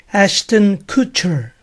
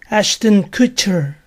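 The two takes are said the same way.

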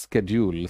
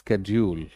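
First: It is said with an American pronunciation. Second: The same.

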